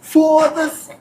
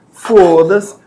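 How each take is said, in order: First: "Foda-se" pitched high and thrilled; "Foda-se" as an exclamation of delight; joyful foda-se. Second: "Foda-se" louder, with a shrug of resignation after tripping; "Foda-se" said as a resigned curse; annoyed foda-se. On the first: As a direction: cheer "Foda-se" as if you won the lottery. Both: Shown as a demonstration. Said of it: "só muda a entonação".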